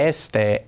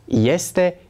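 First: It begins with a plain e vowel. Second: It begins with a y glide before e. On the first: The speaker calls it wrong. "Nu pronunțăm este" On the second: The speaker calls it right. "ci este"

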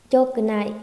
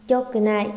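Both takes have the same delivery.

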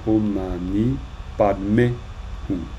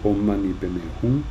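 First: The third word sounds like padme, Sanskrit style. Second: The third word sounds like peme, Tibetan style. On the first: This is the original Sanskrit reading. The speaker calls it right. "normalement, on devrait dire Om Mani Padme Hum" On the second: This is the common Tibetan-style reading. The speaker calls it wrong. "on dit Om Mani Padme Hum"

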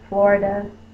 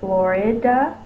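First: The middle vowel is a schwa. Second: The middle vowel is a short i. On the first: "which is the schwa" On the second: "which is the short I"

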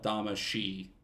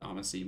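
First: The word is pronounced the Japanese way. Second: The word is pronounced the English way. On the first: This is the official original pronunciation. "it's spelled Damacy in Japanese. So I think that's technically the, like, official pronunciation" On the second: This is how most people commonly say it. "I hear people say Damacy most of the time"

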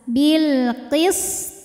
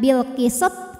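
First: The s flows and the final t bounces clearly. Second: The s bounces and the final t does not. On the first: The speaker calls it right. "Jadi sin dialirkan, to mantul jelas" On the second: The speaker calls it wrong. "Kalau bil qisat sinnya mantul, to-nya jadi nggak mantul"

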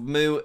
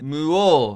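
First: It is said in a British accent. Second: It is said in a Swedish accent. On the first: "in the U K they say" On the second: "in Sweden they say"

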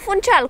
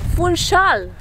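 First: The name is said with a Romanian-style pronunciation. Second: The name is said with a Portuguese pronunciation. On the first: The speaker calls it wrong. "cum am spus până acum" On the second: The speaker calls it right. "cum se pronunță corect"

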